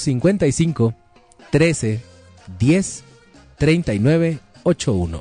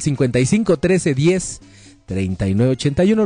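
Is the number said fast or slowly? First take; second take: slowly; fast. First: The number is said slowly and deliberately. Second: The number is said at normal, quicker speed.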